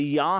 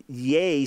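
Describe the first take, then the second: First: "Yah" with an open ah vowel; yah sound. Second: "Yeh" drawn out slowly with an eh vowel; yeh sound. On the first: Teacher isolating the wrong vowel, an open "Yah". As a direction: stretch the ah in "Yah". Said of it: "not the Yah sound". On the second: Teacher isolating the Syriac vowel, a slow "Yeh". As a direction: hold the eh in "Yeh". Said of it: "the Yeh sound". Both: Shown as a demonstration.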